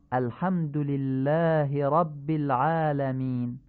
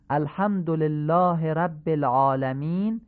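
First: الحمد لله رب العالمین with a pharyngeal ḥ and "lillaahi"; eloquent Arabic. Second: الحمد لله رب العالمین with Persian vowels, "olelahe"; Persian-style reading. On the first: Teacher models the eloquent reading for listeners. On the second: Teacher contrasts the Persian reading for listeners. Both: Shown as a demonstration. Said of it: "به همین حالت فصیح بخونید".

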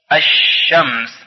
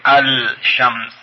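First: الشمس said slowly as ash-shams with doubled sh; no l in الشمس, lean on the doubled sh; الشمس recited slowly, lam silent; correct sun-letter reading. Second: الشمس said as al-shams with a clear l; الشمس read al-shams, the l kept; wrong way, lam sounded. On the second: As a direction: sound the l in الشمس as the mistake to avoid. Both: Shown as a demonstration. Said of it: "نمیگوییم الشمس".

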